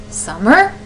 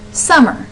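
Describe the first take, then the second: First: SUMMER lifted at the end like a question; the wrong tune, "summer" tipping upward; questioning rise. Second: SUMMER with the first syllable stressed, falling away; "summer" said naturally, front-stressed and falling. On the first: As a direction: say "summer" with the pitch rising on the last syllable. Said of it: "or do you go summer". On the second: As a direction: punch the start of "summer" and let the end drop. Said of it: "hear that stress at the very beginning". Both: Shown as a demonstration.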